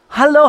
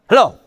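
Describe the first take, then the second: First: The hello sounds warm and glad. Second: The hello sounds curt and annoyed. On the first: The caller is welcome and loved. The speaker calls it right. "When you greet in the right way" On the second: The caller is an unwelcome interruption. The speaker calls it wrong. "you don't"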